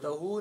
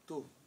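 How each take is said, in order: First: The ending has an extra 'hu' syllable. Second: The ending is a single short 'tu' syllable. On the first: The speaker calls it wrong. "तहू नहीं" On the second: The speaker calls it right.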